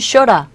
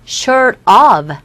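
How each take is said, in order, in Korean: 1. 'of' 단어는 약한 'er' 소리로 줄어듭니다. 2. 'of' 단어는 완전하고 따로 분명하게 발음됩니다.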